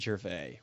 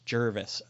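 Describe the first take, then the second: First: The name ends with a 'vay' sound. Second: The name ends with a 'vis' sound. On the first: The speaker calls it wrong. "not Gervais" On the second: The speaker calls it right. "he says it's Jervis"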